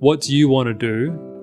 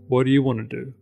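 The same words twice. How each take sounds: First: Each word is said separately, one by one. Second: The words run together smoothly as one unit. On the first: The speaker calls it wrong. "as five separate words" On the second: The speaker calls it right. "just think of them as one fixed word"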